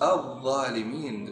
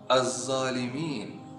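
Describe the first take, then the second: First: The consonant is a 'dh' with the tongue out. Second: The consonant is a 'z' with the tongue inside. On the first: The speaker calls it right. "Harus al-zalimin dikeluarkan lidah sedikit" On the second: The speaker calls it wrong. "kita tidak mengeluarkan lidah kita, jadi diucapkan za"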